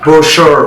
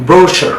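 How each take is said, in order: First: ব্রোশার as "bro-SHUR", louder; long R-coloured ending on ব্রোশার; American drawn-out last syllable in ব্রোশার; American pronunciation. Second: ব্রোশার as "BRO-shuh"; British R-less ending on ব্রোশার; British pronunciation. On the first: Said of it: "কীভাবে আমেরিকানরা sound করে". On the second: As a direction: front stress and no final R in ব্রোশার. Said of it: "কীভাবে ব্রিটিশে sound করে". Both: Shown as a demonstration.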